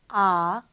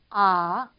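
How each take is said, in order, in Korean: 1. 음이 낮게 내려갔다가 다시 올라가요. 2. 음이 낮게 내려갔다가 다시 올라가요.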